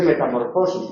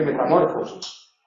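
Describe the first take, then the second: First: Metamorfosis stressed metamor-FO-sis. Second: Metamorfosis wrongly stressed meta-MÓR-fosis; shifted stress. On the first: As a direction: put the beat on FO in metamorfosis. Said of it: "se dice metamorfosis". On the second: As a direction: hit MOR instead of FO in metamorfosis. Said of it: "no se dice metamorfosis". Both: Shown as a demonstration.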